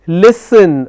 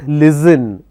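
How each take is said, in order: First: The middle consonant is a hissing s sound. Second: The middle consonant is a buzzing z sound. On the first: The speaker calls it right. "The word is listen" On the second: The speaker calls it wrong. "not listen"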